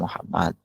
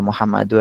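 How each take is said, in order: First: The word ends on the d consonant. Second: The word ends with a bare u vowel. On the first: The speaker calls it right. "Kecuali diwakafkan" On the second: The speaker calls it wrong. "nggak boleh"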